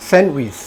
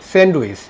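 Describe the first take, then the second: First: স্যান্ডউইচ as "sen-wis", silent d; correct pronunciation. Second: স্যান্ডউইচ as "send-uis", d sounded; common mispronunciation. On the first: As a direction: drop the d from স্যান্ডউইচ. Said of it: "সঠিক উচ্চারণ হলো এটা". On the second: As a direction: pronounce the d in স্যান্ডউইচ. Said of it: "কিন্তু এটা সঠিক উচ্চারণ না". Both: Shown as a demonstration.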